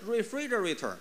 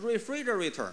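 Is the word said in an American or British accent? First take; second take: American; American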